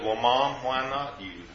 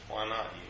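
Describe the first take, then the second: First: Gently, a little softer; kindly. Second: Softer echo. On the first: Son gently answers his mother with cancer, kindly. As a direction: ease it out kindly to a frightened mother. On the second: Son repeats it softly to his mother, hushed and kind. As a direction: repeat it much softer, almost under the breath. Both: Retold or imitated. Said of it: "very kindly".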